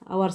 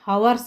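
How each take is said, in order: First: The word begins with a vowel sound. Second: The word begins with an h sound. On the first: The speaker calls it right. "ಇಲ್ಲಿ ಕೂಡ ಎಚ್ silent ಆಗ್ತೈತಿ" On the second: The speaker calls it wrong. "An ಹವರ್ಸ್ ಅಲ್ಲ"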